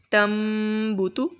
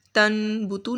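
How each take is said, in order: First: تم بوتو with N turned to M, held in the nose; nasal iqlab. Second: تن بوتو with a clear plain N sound; wrong plain nun. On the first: Teacher shows students the correct iqlab in تم بوتو. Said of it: "غنہ کریں گے ادھر". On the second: Teacher shows students the wrong reading of تن بوتو. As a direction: read تن بوتو the wrong way, N not changed. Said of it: "تن بوتو نہیں پڑھیں گے". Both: Shown as a demonstration.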